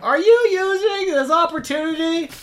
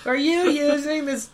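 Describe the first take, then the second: First: High, loud yell from next door; from another room. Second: High, slow yell from offstage; from another room. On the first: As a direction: shout it through the wall. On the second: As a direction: call it through a wall. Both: Acted. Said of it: "Eugene yells from the other room".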